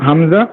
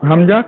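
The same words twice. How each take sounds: Both takes have the same delivery.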